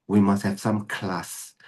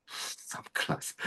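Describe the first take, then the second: First: Said in the usual way. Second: Hushed, voiceless whisper; whispered repeat. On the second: Real, not acted. Teacher repeats the standard for the students, whispered. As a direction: whisper it as an emphatic echo.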